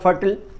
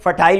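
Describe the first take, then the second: First: The final syllable is a short reduced 'ul' sound. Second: The final syllable is a full 'isle' sound. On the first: "American English में उच्चारण होगा फर्टल" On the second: "British English में फर्टाइल उच्चारण होता है"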